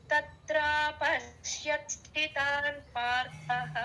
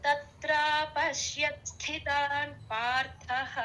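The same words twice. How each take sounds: The two takes are said the same way.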